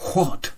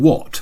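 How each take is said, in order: First: The word starts with a breathy h sound. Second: The word starts with a plain w sound. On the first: The speaker calls it wrong. "I was pronouncing the H" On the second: The speaker calls it right. "normally it's silent"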